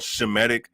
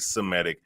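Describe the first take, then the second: First: The word begins with a 'sh' sound. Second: The word begins with an 's' sound. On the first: This is the original form from the name Shem. "it's really supposed to be called Shemitic" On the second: This is the altered form people use. "they take the H out and say Semitic"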